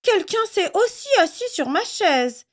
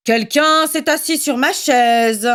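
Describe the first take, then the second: First: Much higher, gentle mother bear; storybook mama bear, soft and high; Mama Bear's soft voice. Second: Slow, grumbling father bear; storybook papa bear grumbling about his chair; Papa Bear's big voice. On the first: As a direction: ask softly like a bear mother. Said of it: "dit Maman Ours de sa voix douce". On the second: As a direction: drag it out like a cross bear dad. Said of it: "gronda Papa Ours de sa grosse voix". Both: A narrator's reading.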